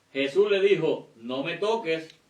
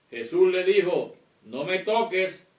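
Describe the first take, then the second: No difference in how they are said.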